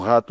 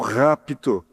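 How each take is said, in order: First: The word is said without the P sound. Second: The word is said with a clear P sound. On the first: It sounds like the word for a rat. The speaker calls it wrong. "se não se pronunciar bem claro, eles pensam que vai ser um rato" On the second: It means the rapture. The speaker calls it right. "É um P mudo aí, mas que tem que ser pronunciado"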